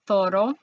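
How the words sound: The first sound is a th sound. "in Barcelona area, it would be pronounced like a T H"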